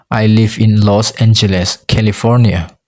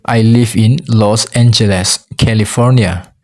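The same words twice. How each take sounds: The two takes are said the same way.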